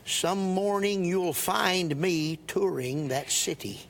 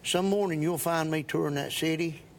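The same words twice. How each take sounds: First: Each vowel is clearly and carefully enunciated. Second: The words are said in casual everyday speech. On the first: This is how it is delivered when performing a song. "if I'm singing, I'll say" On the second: This is how it sounds in ordinary talk. "if I'm talking, I'll say"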